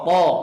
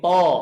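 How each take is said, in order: Both takes have the same delivery.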